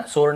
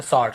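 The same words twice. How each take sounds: First: "स्वॉर्ड" said with a closed long o, like sode; wrong vowel. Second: Said in the usual way. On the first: Shown as a demonstration. Teacher rejecting a variant to students, mispronounced vowel. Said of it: "है ना, स्वॉर्ड नहीं". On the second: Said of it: "ऐसे स्वॉर्ड".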